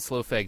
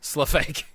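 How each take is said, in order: First: The first word rhymes with slow. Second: The first word rhymes with rough. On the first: The speaker calls it wrong. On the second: The speaker calls it right. "like rough is spelled like that"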